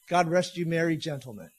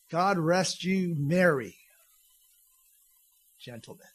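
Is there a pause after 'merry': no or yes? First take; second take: no; yes. First: It is said without a pause after merry. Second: There is a pause after merry.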